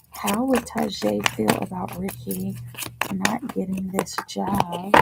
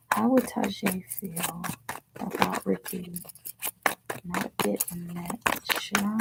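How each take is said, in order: First: Said in the usual way. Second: A soft, unvoiced whisper of the question. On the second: Real, not acted. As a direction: whisper it under your breath while shuffling. Repeating the question while shuffling.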